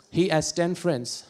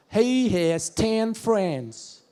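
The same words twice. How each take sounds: First: Said in the usual way. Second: Very slow, drawn-out Alabama drawl; Alabama accent. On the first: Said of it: "Another one". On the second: Shown as a demonstration. Comedian demonstrating Southern speech to audience, Alabama accent. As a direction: stretch every vowel, Southern Alabama style. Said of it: "a little bit of Alabama".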